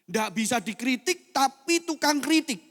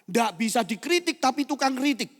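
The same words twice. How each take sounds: First: The sentence is said slowly and deliberately. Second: The sentence is said at a normal pace.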